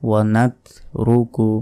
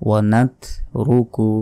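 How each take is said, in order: Both takes have the same delivery.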